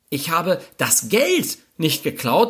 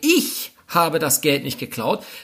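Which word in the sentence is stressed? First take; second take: Geld; ich. First: The word "Geld" is stressed. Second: The word "ich" is stressed. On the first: Something other than the money was taken. "irgendwas habe ich geklaut, es war allerdings nicht das Geld" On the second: Someone else did it. "dann ist völlig klar, dass es höchstwahrscheinlich jemand anderes war"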